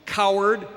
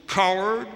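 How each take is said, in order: First: Higher, half-hearted yell; mild mock scream. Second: Higher, mildly raised call; echoed mock scream. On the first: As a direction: call it out like an annoyed boy. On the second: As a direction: toss the yell back like an echo.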